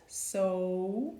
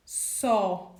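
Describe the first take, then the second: First: 'so' with a closed O, mouth nearly shut. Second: 'so' with an open vowel, like 'saw'. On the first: Teacher contrasting the closed O for students. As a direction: close the vowel in 'so', rounded and tight. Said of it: "you close it". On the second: Teacher showing students the open O in 'so'. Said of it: "you're gonna say so". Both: Shown as a demonstration.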